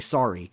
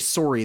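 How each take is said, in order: First: It is said with an American accent. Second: It is said with a Canadian accent. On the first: The speaker calls it right. "you're going to have to learn the American accent and certain words. Like, they don't say sorry, they say sorry" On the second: The speaker calls it wrong. "they don't say sorry"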